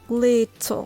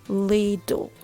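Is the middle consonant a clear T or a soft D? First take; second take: clear T; soft D. First: The middle consonant is a clear T sound. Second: The middle consonant is a soft D sound.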